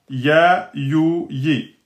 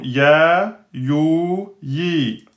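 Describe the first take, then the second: First: Said in the usual way. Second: "ya, you, yi" with each vowel drawn out long; prolonged vowels. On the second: Shown as a demonstration. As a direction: hold the vowels in "ya, you, yi" as in a recitation drill.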